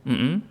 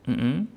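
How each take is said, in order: Both takes have the same delivery.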